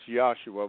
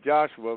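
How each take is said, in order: First: The name is said as Yahshua. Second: The name is said as Joshua. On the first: This is the speaker's preferred biblical form. "but I now pronounce it as Joshua" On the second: This is the usual name people are taught. "we are told to call it Joshua"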